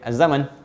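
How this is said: The vowel after z is kept short.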